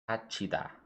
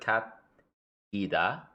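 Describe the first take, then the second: First: The middle consonant is a 'ch' sound. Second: The middle consonant is a plain 't' sound. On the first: The speaker calls it right. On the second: The speaker calls it wrong.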